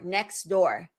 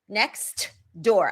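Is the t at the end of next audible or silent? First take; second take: silent; audible. First: The t in next is dropped. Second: The t in next is clearly pronounced. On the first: The speaker calls it right. "I say next door" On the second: The speaker calls it wrong. "I don't say that"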